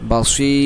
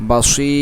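The two takes are said the same way.

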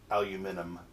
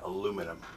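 First: It is said in a British accent. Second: It is said in an American accent.

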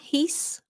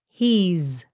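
First: The word ends with an S sound. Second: The word ends with a Z sound. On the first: The speaker calls it wrong. "chứ đừng có làm cái sound S nhé. Không phải là he's. Not he's" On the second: The speaker calls it right. "pronounce with the Z sound"

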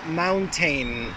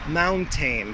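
First: The last syllable has a full 'tain' vowel. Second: The last syllable has a full 'tain' vowel.

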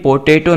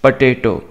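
First: The first syllable has a full 'po' vowel. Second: The first syllable has a reduced 'puh' vowel. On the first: The speaker calls it wrong. "ये पोटेटो नहीं है" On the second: The speaker calls it right. "सही pronunciation है ना वो है पटेटो"

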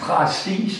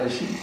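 First: It is pronounced closely following the written spelling. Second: It is pronounced in ordinary everyday spoken style. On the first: This is how the singer says it. The speaker calls it wrong. "så siger hun præcis" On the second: This is the usual way to say it. The speaker calls it right. "i stedet for præcis"

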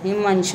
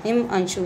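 The two takes are said the same way.

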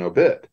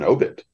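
First: The stress is on the second syllable. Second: The stress is on the first syllable. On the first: It follows the stress of the longer word. "it's an obit because that's the way it is in obituary" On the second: It follows newspaper usage. "It's the first syllable"

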